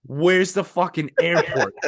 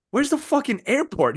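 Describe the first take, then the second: First: Slow, laughing repeat of "Where's the fucking airport?"; laughing retell. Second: High, baffled demand about the airport. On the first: Retelling the absurd drop-off to friend, slow and laughing. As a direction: drag it out through laughter. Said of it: "like, dude". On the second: Stranded traveler asking the driver, high baffled demand. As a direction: ask it shocked, pitched up. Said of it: "I'm like". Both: Retold or imitated.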